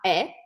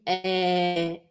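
First: The word is said short and clipped. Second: The final sound is drawn out long. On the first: The speaker calls it wrong. "On ne dit pas est" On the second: The speaker calls it right. "on prolonge la syllabe ou le son. ... on dit est"

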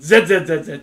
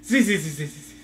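First: The letter is said the English way, 'zed'. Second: The letter is said the American way, 'zee'.

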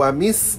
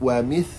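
First: The middle consonant is a hissing s sound. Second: The middle consonant is a th sound, tongue out. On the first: The speaker calls it wrong. "Bukan wamis, jangan baca wamis" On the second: The speaker calls it right. "lidah mesti kena keluar"

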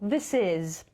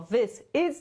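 First: The two words are linked into one. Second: The two words are said separately. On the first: The speaker calls it right. "tylko this is" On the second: The speaker calls it wrong. "Nie jako this is"

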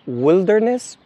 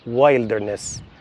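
First: The first syllable has a short 'i' vowel. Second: The first syllable has the long 'wild' vowel. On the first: The speaker calls it right. "لكن البرية تنطق wilderness" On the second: The speaker calls it wrong. "وليس wilderness"

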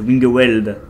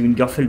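First: The last syllable begins with a W sound. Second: The last syllable begins with an F sound. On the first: The speaker calls it right. "C'est Wingerweld" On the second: The speaker calls it wrong. "je dis Wingerfeld, mais ça se dit pas comme ça"

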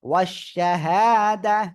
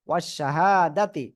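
First: The word ends with a silent, stopped 'h'. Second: The word ends with a full 'ti' syllable. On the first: The recitation pauses at this word. "ওয়াকফ করলে যখন গোলতা পাবেন তখন গোলতা হা হয়ে যাবে এবং সাকিন হবে।" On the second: The recitation continues without stopping here. "তাজেত্তি"

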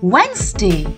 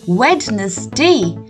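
First: The word is said in two syllables, Wenz-day. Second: The word is said in three syllables, Wed-nes-day. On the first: The speaker calls it right. "the correct pronunciation for this day of the week is ... Wednesday" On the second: The speaker calls it wrong. "I used to pronounce it as Wednesday. ... Wed plus ness plus day"

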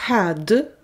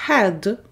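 The two takes are said the same way.

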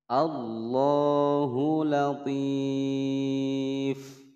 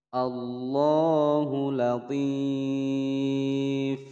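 No difference in how they are said.

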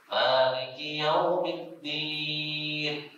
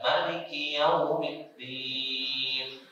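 First: The first vowel of Maliki is long. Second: The first vowel of Maliki is short. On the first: "bukan pendek" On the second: "bisa dibaca"

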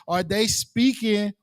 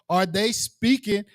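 Both takes have the same delivery.

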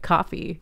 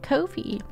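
First: The first vowel sounds like in 'cough'. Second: The first vowel sounds like in 'go'. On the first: The speaker calls it right. "It's pronounced like coffee" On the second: The speaker calls it wrong. "It's not correct"

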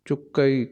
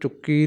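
First: The word ends in a two-vowel 'a-ee' sound. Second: The word ends in a single 'ee' sound. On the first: The speaker calls it right. "ਚੱਚੇ ਤੇ ਅਦਕ" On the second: The speaker calls it wrong. "ਚੁੱਕੀ ਨਹੀਂ ਕਹਿਣਾ"

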